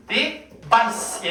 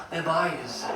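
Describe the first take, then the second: First: "Device" with a sharp, hissed s ending; sharp pronunciation. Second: "Revise" said low and oily; greasy pronunciation. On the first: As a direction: cut "Device" off on a crisp s. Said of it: "얘는 날카롭게 읽어야 돼". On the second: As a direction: ooze through "Revise" with a soft, buzzing ending. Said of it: "최대한 느끼하게 읽으셔야 돼요". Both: Shown as a demonstration.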